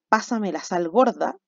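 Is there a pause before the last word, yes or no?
no. It is said straight through without a pause.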